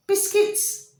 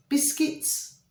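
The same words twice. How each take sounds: First: A sudden much higher, otherworldly repeat; high echoed answer. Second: Breathy whispered title, one word; whispered answer. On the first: Spirit guards repeating the title in a high voice. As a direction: sing it out high like a voice from beyond. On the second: Spirit guards answering in a hushed whisper. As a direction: hush it like a secret from beyond. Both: Pretend.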